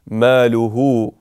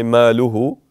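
First: ماله with the last vowel held for two counts; prolonged waw. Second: ماله with the final waw clipped; ماله said without the long u; short waw. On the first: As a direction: hold the u in ماله. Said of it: "prolong it for two harakat". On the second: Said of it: "We can't say". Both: Shown as a demonstration.

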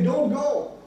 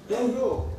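First: "Don't go" split, GO set apart and higher; pause after DON'T. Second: Said in the usual way. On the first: Shown as a demonstration. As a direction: say "Don't", then "go" as its own command. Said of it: "But if you say". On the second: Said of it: "then it means to stop".

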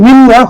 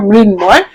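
First: মৃন্ময় as "mrinnoy", second m left out; expected doubled n. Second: মৃন্ময় as "mrin-moy"; sounded m. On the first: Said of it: "হওয়ার কথা ছিল". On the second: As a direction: say মৃন্ময় with n then a clear m. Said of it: "হবে না, মৃন্ময়". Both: Shown as a demonstration.

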